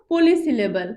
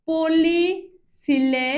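First: Said in the usual way. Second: পলিসিলেবল drawn out very slowly, syllable by syllable; broken into syllables. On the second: Shown as a demonstration. Teacher names the term for students, breaking পলিসিলেবল into slow syllables. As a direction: stretch পলিসিলেবল into separate, slow beats. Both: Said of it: "ভেঙে ভেঙে যদি সেই শব্দটাকে উচ্চারণ".

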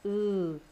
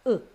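First: U held as a long oo; long vowel sound. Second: U as a very short, clipped vowel; short vowel sound. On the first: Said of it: "this is a sound of". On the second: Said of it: "This is a sound of". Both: Shown as a demonstration.

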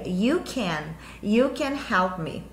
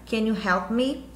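First: "you can" dito devagar, com you antes de can; afirmação. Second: "Can you help me?" com can na frente e subida no fim; pergunta. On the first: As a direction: afirmando sem subir no fim, you can help me. (you can help me em tom de afirmação, caindo no fim) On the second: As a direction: pergunte com calma, subindo no me. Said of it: "se eu pergunto pra você". (pergunta com can na frente e me subindo) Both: Shown as a demonstration.

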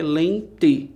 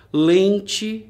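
First: "Lente" split into len and te; syllable by syllable. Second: Said in the usual way. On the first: Shown as a demonstration. Teacher dividing an example word, "Lente" in two distinct beats. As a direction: separate both syllables of "Lente", giving te its full vowel. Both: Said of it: "do mesmo jeito".

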